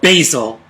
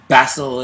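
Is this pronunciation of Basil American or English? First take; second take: American; English. First: The name is said with an American pronunciation. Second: The name is said with an English pronunciation. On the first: The speaker sounds American. "if you want to be, be American" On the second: The speaker sounds sophisticated. "if you're going to be English sophisticated"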